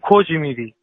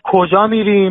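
First: The first word ends in an 'i' vowel. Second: The first word ends in a long 'a' vowel. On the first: "ما میگیم" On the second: "شما میگید"

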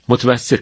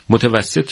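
First: The word is said in a shortened form. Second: The word is said with all its syllables.

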